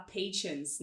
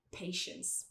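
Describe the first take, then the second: First: "patience" as pay-chence; mistaken tch version. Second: "patience" as pay-shence; slow "patience" with a soft SH; correct sh sound. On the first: Teacher mimicking learners' error, "patience" with tch. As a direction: put a tch inside "patience". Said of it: "Algumas pessoas tendem a falar patience". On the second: Teacher correcting, "patience" slowly with sh. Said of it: "mas é patience". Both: Shown as a demonstration.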